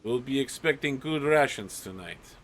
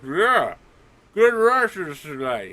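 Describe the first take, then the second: First: Said in the usual way. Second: Loud guard talking through food; high, loud, muffled mock cheer; mouth stuffed. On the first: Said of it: "the guard commander is like". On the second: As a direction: pretend your mouth is crammed with sausage. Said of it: "a sausage stuffed in his mouth".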